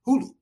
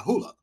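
First: "Hulu" ending in "oo", like hoo-loo; self-corrected pronunciation. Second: "Hulu" ending in an "uh" sound, like hoo-luh; unsure pronunciation. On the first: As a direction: say "Hulu" with both syllables in "oo". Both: Real, not acted. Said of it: "however you say that damn name".

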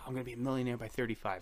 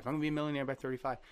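First: Said in the usual way. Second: Rattled off fast and a bit higher; fast repeated mantra. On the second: Retold or imitated. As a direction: chant it quickly like a mantra you repeat to yourself. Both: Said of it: "I was always like".

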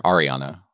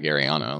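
First: Ariana opening with an "ar" sound; corrected Ariana. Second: Ariana opening with an "air" sound; mispronounced Ariana. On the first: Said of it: "like, whatever. Ariana". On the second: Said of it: "'cause you called her Ariana". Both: Real, not acted.

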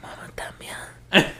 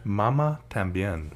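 First: Soft unvoiced whisper. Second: Whispered. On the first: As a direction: breathe it out quietly. Echoing the whispered title. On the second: Real, not acted. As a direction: hush it out like a secret. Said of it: "Since David said it that way".

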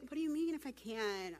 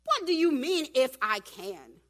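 First: Imitating a too-meek response; mock mild question. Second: Acted affronted outburst; indignant Jesus. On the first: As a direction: say it lightly, without any bite. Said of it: "He's not gonna be like". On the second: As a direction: throw the doubt back forcefully, stretching the end. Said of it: "It's Jesus".

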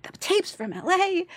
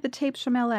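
First: High, slow mock disbelief; hammed-up incredulity, pitched way up; incredulous echo. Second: Said in the usual way. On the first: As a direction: repeat it as an outraged question, stretched out. Incredulous repeat of the news.

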